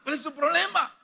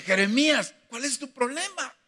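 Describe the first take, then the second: First: God challenging. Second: God questioning Jeremiah. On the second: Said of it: "el Señor le tuvo que decir". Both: Retold or imitated.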